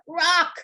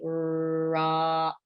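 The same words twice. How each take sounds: First: The word is shouted loudly. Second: The word is drawn out slowly, sound by sound. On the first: "shout it out" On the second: "say it very slowly"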